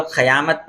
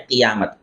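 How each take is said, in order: First: قیامت said wrongly as "qayāmat", "a" after qaf; mispronounced with zabar. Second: قیامت said as "qiyāmat", short "i" after qaf; correct, with zer. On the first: Teacher shows students a common misreading, qaf with zabar in قیامت. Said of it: "قاف کے زبر کے ساتھ". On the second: Teacher gives students the correct reading, qaf with zer in قیامت. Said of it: "صحیح تلفظ اس کا ہے". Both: Shown as a demonstration.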